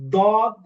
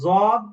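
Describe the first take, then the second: First: The letter is said with a plain d sound. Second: The letter is said with a plain z sound. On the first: "এটাও ভুল।" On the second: "আর একটা সরাসরি জদ, এটা ভুল।"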